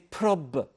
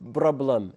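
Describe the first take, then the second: First: The word begins with a voiceless p sound. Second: The word begins with a voiced b sound. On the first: The speaker calls it right. "we say prob" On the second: The speaker calls it wrong. "we don't say problem"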